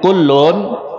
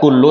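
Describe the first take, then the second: First: The word ends with a final n sound. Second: The word ends in a vowel, without n. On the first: The speaker calls it right. "tapi kullun" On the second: The speaker calls it wrong. "bukan dibaca kullu"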